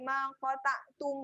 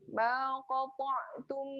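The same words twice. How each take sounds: First: The consonants are pronounced light and thin. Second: The consonants are pronounced heavy and thick. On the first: The speaker calls it wrong. "Ah itu salah" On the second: The speaker calls it right. "Ma qata' tebal"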